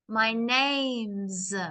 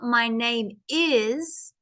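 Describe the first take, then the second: First: The verb is reduced and joined onto 'name'. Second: The verb is said as a separate full word. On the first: The speaker calls it right. "because it's contracted" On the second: The speaker calls it wrong. "it's not my name is"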